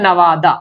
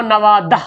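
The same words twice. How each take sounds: First: नवादा ending open "-daa", no "h"; as spoken. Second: नवादा ending "-dah", with sounded "h"; as written. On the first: Teacher showing how it is read, नवादा as "na-waa-daa". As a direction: leave the "h" off नवादा. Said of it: "लेकिन पढ़ते हैं". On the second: Teacher reading out the spelling, नवादा as "na-waa-dah". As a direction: end नवादा on an audible "h". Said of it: "लिखा हुआ". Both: Shown as a demonstration.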